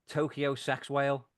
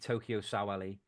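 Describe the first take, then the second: First: The surname sounds like the words sex whale. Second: The surname sounds like sa-wa-lee, three syllables. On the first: The speaker calls it wrong. "it's spelled sex whale" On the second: The speaker calls it right. "Pronounced Sa Wei Lee"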